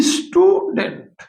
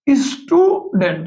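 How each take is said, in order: First: স্টুডেন্ট slowly as স্টু-ডেন্ট, pitched higher; স্টুডেন্ট stretched into two syllables; split into syllables. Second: স্টুডেন্ট slowly as স্টু-ডেন্ট; স্টুডেন্ট drawn out in two parts; split into syllables. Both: Shown as a demonstration. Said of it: "দুইবার উচ্চারণ করতে হয়".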